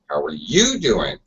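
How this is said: The word 'you' is strongly stressed. "You, you, you. Really stressed"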